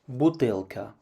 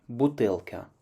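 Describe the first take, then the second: No difference in how they are said.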